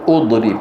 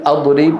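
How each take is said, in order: First: أضرب started with u, "udrib"; wrong opening vowel. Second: أضرب started with a, "adrib"; wrong opening vowel. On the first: Teacher showing what we do not say, with damma. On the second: Teacher showing what we do not say, with fatha. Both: Shown as a demonstration. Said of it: "ولا نقول".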